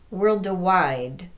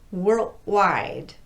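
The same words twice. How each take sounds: First: A short vowel is added after the D. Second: The D is voiceless and sounds like T. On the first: "come off of that D with a vowel sound" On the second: "students will devoice the D"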